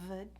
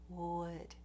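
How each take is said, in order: First: The word starts with a v sound. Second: The word starts with a rounded w sound. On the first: The speaker calls it wrong. "replace a W with a V sound" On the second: The speaker calls it right. "make sure that you're doing a clear w"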